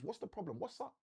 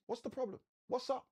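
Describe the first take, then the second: First: Softer, almost confiding; hushed angel asking what's wrong. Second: Higher, bright and easy, brushing the worry aside; a caring angel checking in lightly; high, casual angel asking what's up. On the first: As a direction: lean in and ask it gently. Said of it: "Which basically means". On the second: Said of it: "The angel says unto her". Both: Pretend.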